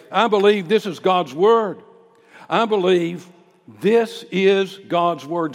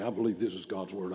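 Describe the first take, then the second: First: Loud, high preacher's confession of faith; bold public declaration. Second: Reluctant recital. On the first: Acted. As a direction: declare it boldly in the public square. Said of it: "say it just like that". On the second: Retold or imitated. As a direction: rattle it off as a wary churchgoer declining to say it. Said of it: "I'm not going out and say it just like that".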